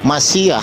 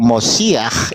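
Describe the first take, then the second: First: It is said in a Sephardic Hebrew accent. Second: It is said in an Ashkenazi Hebrew accent. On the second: "dalam logat Askenazi"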